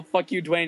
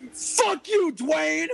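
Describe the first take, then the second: First: Said in the usual way. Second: Very high, strained mock yell; retold yell. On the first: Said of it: "tried to get everybody else to yell". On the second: Host yells at his friend from the stage, high-pitched mock yell. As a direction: holler it far up in pitch, playfully hostile. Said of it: "and I yelled".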